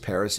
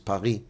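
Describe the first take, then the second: First: It is said with an English pronunciation. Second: It is said with a French pronunciation. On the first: "In English, it's Paris" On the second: "In French, it's Paris"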